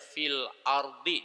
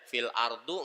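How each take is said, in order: First: The last word ends with an i vowel. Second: The last word ends with an u vowel. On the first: The speaker calls it right. "dia pasti bacanya fil ardi, dikasrohkan" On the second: The speaker calls it wrong. "itu nggak boleh dibaca fil ardu"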